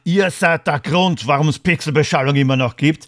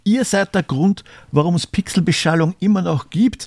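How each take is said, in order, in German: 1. Das wird in einem vorwurfsvollen, anklagenden Ton gesagt. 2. Das wird in einem warmen, dankbaren Ton gesagt. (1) "es kommt immer auf die Betonung an" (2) "Ich bedanke mich für die Treue"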